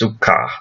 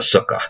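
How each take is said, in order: First: The stress is on the last syllable. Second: The stress is on the first syllable.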